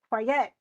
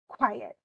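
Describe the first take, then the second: First: The stress is on the second syllable. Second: The stress is on the first syllable. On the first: The speaker calls it wrong. "we don't say quiet" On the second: The speaker calls it right. "we say quiet. And the stress is in that first part, qui"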